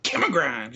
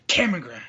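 First: All-caps announcement. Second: "Cameron Grimes" boomed louder, stress on Cameron; all-caps shout. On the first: Retold or imitated. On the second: Shown as a demonstration. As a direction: announce the name in all caps. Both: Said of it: "You gotta say it with all caps".

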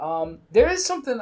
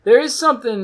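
First: Said in the usual way. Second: Into a fan. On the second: Real, not acted. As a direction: voice warbled through fan blades. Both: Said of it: "it sounds cool if I talk into the fan".

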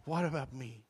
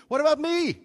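First: Soft, dismissive echo of the line; quiet scornful mimic; mocking the song. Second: High, loud, outraged question; much higher and louder protest; indignant cry. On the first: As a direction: quote it back with disdain. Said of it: "I hate that song". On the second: Retold or imitated. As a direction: throw it up at heaven. Anguished cry in retold prayer.

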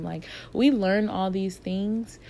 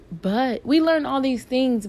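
First: Said in the usual way. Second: "we learn all these things" repeated higher, louder and slower; emphatic. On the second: Shown as a demonstration. Stressing the point to her listeners, emphatic and slow. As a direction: lean hard on the repeat, slowly.

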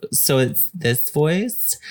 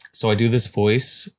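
First: Higher, slowed-down feminine voice. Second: Said in the usual way. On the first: Shown as a demonstration. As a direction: put on a very feminine voice, drawing the words out. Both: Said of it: "It's a very feminine voice".

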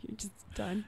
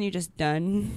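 First: Softly whispered afterthought with a laugh; breathy, voiceless aside. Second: Said in the usual way. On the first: Real, not acted. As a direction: whisper it to yourself. Repeats phrase as a whisper.

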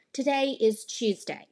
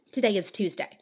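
First: British-style accent, Tuesday as "Chooseday"; slower British accent, "Tuesday" begun with a ch sound; different accent. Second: Said in the usual way. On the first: Shown as a demonstration. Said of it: "someone else might say something like". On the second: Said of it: "I might say something like".

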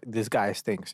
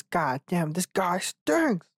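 First: Said in the usual way. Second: High, very slow cartoon sponge voice; SpongeBob voice. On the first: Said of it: "it's better just to say". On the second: Joking about a bad first blowjob, SpongeBob voice. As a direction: stretch it out like a goofy cartoon sponge. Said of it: "I wanted to do it in the SpongeBob".

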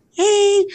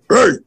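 First: Very high, thin "hey"; tiny falsetto demo; high puberty voice. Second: Broken-in puberty voice. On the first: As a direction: squeak it like a boy before his voice changes. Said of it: "my voice was transitioned, like, from puberty". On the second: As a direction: drop it to a post-puberty voice. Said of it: "to, like". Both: Shown as a demonstration.

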